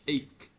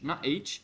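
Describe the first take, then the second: First: The word ends with a k sound. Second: The word ends with a ch sound. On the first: The speaker calls it right. "So ache is pronounced like ache" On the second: The speaker calls it wrong. "Don't say H, not H"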